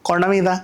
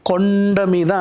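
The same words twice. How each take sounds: First: The phrase is said flat and small. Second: The phrase is said big and drawn out. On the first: The speaker calls it wrong. "కొండ మీద అనకూడదు" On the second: The speaker calls it right. "కొండ మీద అంటాం. ఎందుకంటే కొండ అంత ఉంటుంది కదా"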